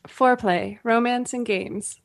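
It is said in a put-on radio announcer voice.

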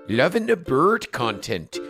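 It is read in a put-on Swedish accent. The speaker calls it wrong. "I need you to do it in a Swedish accent"

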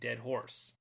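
It is spoken in an American accent. "as an American, I'd be saying dead horse"

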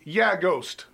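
It is said flat and deadpan.

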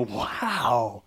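It sounds amazed and excited.

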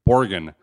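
It is said with an American pronunciation. The speaker calls it wrong. "I would say something incorrectly in French"

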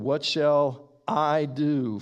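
The pronoun I is emphasized.

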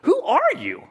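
It sounds startled and surprised by the person.

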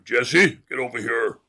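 It is said in a put-on movie-dad voice.

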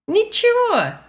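It is said in a cheerful, upbeat tone.

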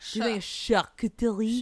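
It is said with an exaggerated French accent. "did too much of the for my French accent"

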